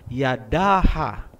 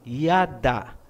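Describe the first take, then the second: First: It adds a final third syllable. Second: It ends after the second syllable. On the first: The speaker calls it wrong. "Hindi po binabasa na yadaha" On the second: The speaker calls it right. "Gaya halimbawa ng salitang yada"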